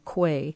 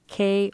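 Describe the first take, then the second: First: The word sounds like 'kway'. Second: The word sounds like 'kay'. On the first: "or quay"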